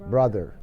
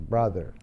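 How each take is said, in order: The two takes are said the same way.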